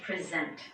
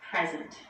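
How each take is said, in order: First: The stress is on the second syllable. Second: The stress is on the first syllable. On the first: It means to give, award or formally show. "when the stress is on the second syllable, we say present" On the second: It means being in a place now, or a gift. "the stress is on the first syllable"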